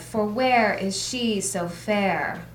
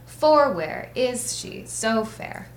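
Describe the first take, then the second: First: The stress falls on the word 'where'. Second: The stress falls on the word 'for'. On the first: The speaker calls it right. "That's iambic, for where" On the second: The speaker calls it wrong. "we don't say, ... that's not how we talk"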